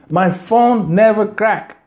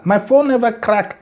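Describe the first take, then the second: First: My phone never crack said slowly, leaning on phone; slow down and insist on every word; slow insistent. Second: Said in the usual way. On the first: Real, not acted. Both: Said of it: "repeats the same claim".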